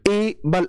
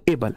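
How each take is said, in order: First: एबल split as ए, बल with a gap; broken into syllables. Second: Said in the usual way. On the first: Shown as a demonstration. Teacher showing how not to say it, एबल chopped in two. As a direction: pause in the middle of एबल. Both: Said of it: "ऐसे तो नहीं करते".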